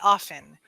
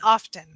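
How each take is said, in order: First: The word is said the casual, everyday way. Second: The word is said the careful, reading way. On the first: This is how it comes out in conversation. "when I'm speaking, I say often" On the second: This is how it comes out when reading. "when I see it or when I'm reading it, it's often"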